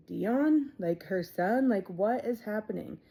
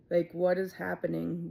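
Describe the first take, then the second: First: Higher, urgent retold panic; frantic guessing. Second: Said in the usual way. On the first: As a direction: rattle off names in rising alarm. Frantic guessing who died.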